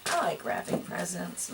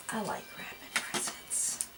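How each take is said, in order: First: Said in the usual way. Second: Breathy whispered repeat. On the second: Shown as a demonstration. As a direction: whisper it to yourself.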